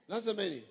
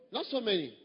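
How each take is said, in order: Both takes have the same delivery.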